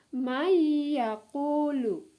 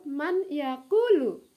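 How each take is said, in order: First: The n merges into the following y sound. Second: The n is pronounced separately before the y. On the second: "tertulis di situ"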